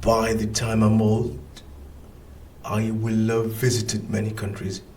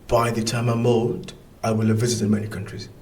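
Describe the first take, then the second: First: The sentence is spoken more slowly. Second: The sentence is spoken at normal speed.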